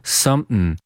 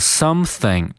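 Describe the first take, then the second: First: The word is said with a glottal stop. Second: The word is said in full, without a glottal stop.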